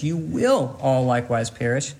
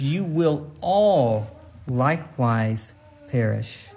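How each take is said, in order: First: "will" raised above the other words; stress on will. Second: "all" drawn out slowly and weightily; slow right down and lean on "all"; long, heavy "all", each following word set apart; stress on all. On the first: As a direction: lean firmly on "will". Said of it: "So emphasize will". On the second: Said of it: "but also emphasize all". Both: Shown as a demonstration.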